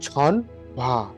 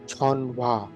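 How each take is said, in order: The two takes are said the same way.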